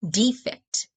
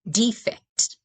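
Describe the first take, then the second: First: The stress is on the first syllable. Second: The stress is on the first syllable.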